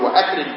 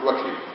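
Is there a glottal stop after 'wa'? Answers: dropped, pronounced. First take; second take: pronounced; dropped. First: A glottal stop is heard before the a-sound. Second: The glottal stop is dropped and the words run together. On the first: The speaker calls it right. "تقول وأكرم فلانا" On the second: The speaker calls it wrong. "ما تقول وكرم"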